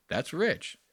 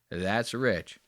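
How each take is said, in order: First: Sarcastic aside. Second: Said in the usual way. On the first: Acted.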